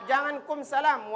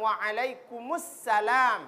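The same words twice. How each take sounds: First: Said in the usual way. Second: Slow waalaikumsalam with joined kumus; correct salam. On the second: Shown as a demonstration. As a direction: Waalaikumsalam slowly, kumus linked smoothly. (waalaikumsalam yang benar, pelan)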